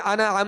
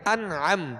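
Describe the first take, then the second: First: The n bounces with a short echoing vowel. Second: The n rests still with no echoing vowel. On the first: The speaker calls it wrong. "कलकला भी नहीं करेंगे, अना अम नहीं करेंगे" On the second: The speaker calls it right. "सुकून जमाओं के साथ अदा होगा"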